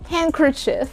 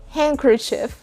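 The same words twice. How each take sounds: First: The d sound is silent. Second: The d sound is silent.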